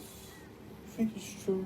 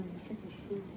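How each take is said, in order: First: Breathy unvoiced whisper of the question; hushed whispered doubt. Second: Even softer, barely voiced repeat; distant muttered echo of the question; faint murmur. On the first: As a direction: whisper it like a secret. Whispered question, then repeated. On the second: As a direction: let it fade almost to nothing. Repeated even more quietly.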